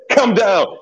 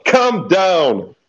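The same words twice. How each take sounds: First: Raised, laughing call. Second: High laughing plea; calling out again. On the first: Calling to frantic player, laughing. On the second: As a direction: plead with them, still laughing. Repeated call to frantic player. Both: Real, not acted.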